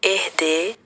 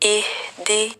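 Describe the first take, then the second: First: The vowels are e-like sounds. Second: The vowels are pure i sounds with a full h. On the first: The speaker calls it wrong. "इहदी को एहदे पढ़ना" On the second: The speaker calls it right. "सही अदायगी"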